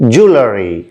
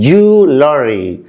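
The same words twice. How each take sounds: First: It is said with an American accent. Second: It is said with a British accent. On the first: "In American pronunciation" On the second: "British pronunciation"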